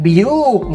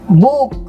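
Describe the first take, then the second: First: It begins with the letter name bee. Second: It begins with a plain short b sound. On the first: The speaker calls it wrong. "nggak biuk, nggak gitu kan" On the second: The speaker calls it right. "Book ya kan"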